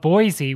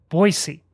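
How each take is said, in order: First: The middle consonant is a z sound. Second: The middle consonant is an s sound. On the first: The speaker calls it wrong. "correcting his pronunciation of Boise" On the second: The speaker calls it right. "with Boise"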